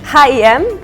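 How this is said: The letters are said with Polish letter names. "Now it's time for Poland"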